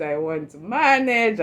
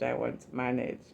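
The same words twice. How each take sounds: First: Said in the usual way. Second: Softer, dying-away I won't manage; quieter, defeated I won't manage; fading resignation. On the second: Retold or imitated. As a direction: let I won't manage trail off, beaten. Despairing on first day.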